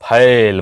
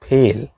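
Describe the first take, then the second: First: The vowel is the open 'ai' sound. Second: The vowel is the closer 'e' sound. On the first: The speaker calls it wrong. "फैल बोलते हैं, जबकि गलत है" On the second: The speaker calls it right. "वो होता है फेल"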